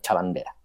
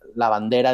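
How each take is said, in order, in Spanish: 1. La frase empieza con un sonido parecido a ch. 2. La frase empieza con un sonido l simple. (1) "dicen chabandera" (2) "en lugar de decir eh, la bandera"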